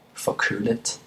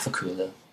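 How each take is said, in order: First: The final T is pronounced strongly. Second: The final T is pronounced softly. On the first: "you can say the T strongly if you want" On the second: "in common everyday speech, they would just say"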